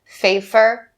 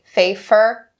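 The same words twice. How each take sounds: Both takes have the same delivery.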